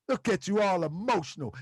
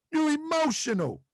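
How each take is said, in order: First: A light imitation of [name], mocking. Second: Said in the usual way. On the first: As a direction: tease them like the battle rapper, lightly voiced. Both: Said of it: "And my [name] voice".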